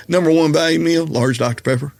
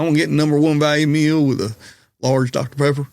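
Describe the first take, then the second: First: Repeated Southern order. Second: Put-on thick Southern accent. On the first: Retold or imitated. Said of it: "I'm sorry, excuse me?". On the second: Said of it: "all of a sudden it got super thick".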